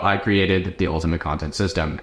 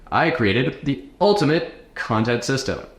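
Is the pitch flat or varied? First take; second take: flat; varied. First: The pitch stays flat and monotone throughout. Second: The pitch moves up and down expressively. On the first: The speaker calls it wrong. "don't be monotone, okay? Don't just be like" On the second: The speaker calls it right. "go up and down"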